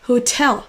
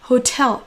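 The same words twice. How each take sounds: Both takes have the same delivery.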